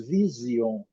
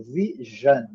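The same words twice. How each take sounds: First: "vision" as vizio; Brazilian vision. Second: "vision" with zh sound, vizhan; slow, buzzing zh in "vision"; English vision. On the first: Teacher shows the Brazilian vision. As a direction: say "vision" with z and final io. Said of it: "Nós falamos". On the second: Teacher models the English vision. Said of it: "eles falam". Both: Shown as a demonstration.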